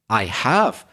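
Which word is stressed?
have. The stress falls on the word have. The contrast is between having done it and not. "in that case I stress the word have"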